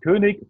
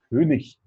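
First: The ending -ig is said with a hard k. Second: The ending -ig is said with a soft ch.

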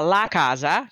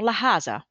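First: It has standard Italian pronunciation with a hard c. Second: It has a Tuscan accent with a breathy c.

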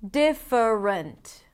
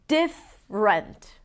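First: The word is said with three syllables. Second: The word is said with two syllables. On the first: "instead of" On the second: "Reducing three syllables into two"

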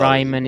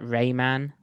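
First: The name is said with a German pronunciation. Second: The name is said with an American pronunciation. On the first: "Raimann is way too difficult, even though he's actually Austrian" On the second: "apparently Americans can only pronounce that Rayman"

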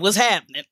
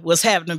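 First: It is said imitating the guest's distinctive delivery. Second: It is said in the host's plain everyday voice.

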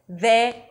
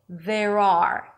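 First: The word 'are' is reduced almost away. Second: The word 'are' is fully pronounced.

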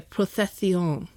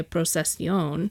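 First: The s sound is a soft lisped th. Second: The s sound is a plain hissing s. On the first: "it's super lispy" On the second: "in Latin American Spanish, would be a procesión"

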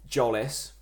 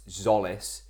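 First: The name begins with a J sound. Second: The name begins with a Z sound. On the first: The speaker calls it wrong. "I will continue to pronounce his name Jolis" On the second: The speaker calls it right. "I know it's Zolis"

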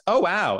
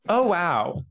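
First: Said as a quick, unthinking, spontaneous reaction. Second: Said as a measured, considered, deliberate reaction. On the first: The impression is genuine and unguarded. "this is my impression of a straight person being impressed" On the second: The impression is consciously weighed before showing it.

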